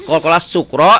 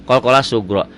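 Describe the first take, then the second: First: "sukro" said with a plain k sound; wrong sukro. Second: "sugro" said with a voiced g in place of the k; corrected sugro. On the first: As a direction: say "sukro" with a hard k, as the mistake. ("sukro" dengan huruf k, ucapan yang salah) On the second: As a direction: swap the k for a g in "sugro". ("sugro" dengan huruf g, ucapan yang benar) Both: Shown as a demonstration. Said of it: "K-nya ganti G".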